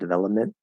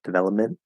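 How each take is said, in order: Both takes have the same delivery.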